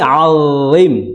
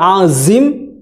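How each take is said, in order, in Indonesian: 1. Konsonan tengah diucapkan tanpa desisan sama sekali. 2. Konsonan tengah adalah bunyi z yang mendesis. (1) "tapi alim, ya, alim. Jadi tidak ada suara tss" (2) "Bukan azim"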